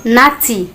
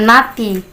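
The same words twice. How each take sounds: First: Naughty with the T burst out, teeth meeting; exploded T. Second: Naughty said with a soft, unexploded T; naughty with a lazy Indonesian t, the teeth never meeting; wrong soft T. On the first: Teacher correcting students, naughty with a crisp popped T. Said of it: "tapi naughty". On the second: Teacher showing students the wrong way, naughty with a soft t. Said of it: "bukan naughty". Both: Shown as a demonstration.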